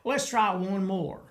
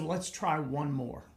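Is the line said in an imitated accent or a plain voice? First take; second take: imitated; plain. First: It is said in an imitated regional accent. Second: It is said in a plain everyday voice. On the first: This is how the other man sounded. "He said" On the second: This is not how the other man sounded. "But he didn't say it like that"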